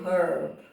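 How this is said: The word is said with a British pronunciation. "British say herb"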